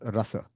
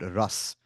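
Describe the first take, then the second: First: The word ends on a vowel. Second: The word ends on a consonant. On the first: This is the Sanskrit form. "in Sanskrit it will be pronounced as rasa" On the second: This is the Hindi form. "in Hindi we'll call it ras"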